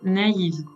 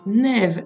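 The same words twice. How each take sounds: First: The a and i are said as separate vowels. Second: The a and i merge into one vowel sound. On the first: The speaker calls it right. "elle est naïve" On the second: The speaker calls it wrong. "Elle n'est donc pas naïve"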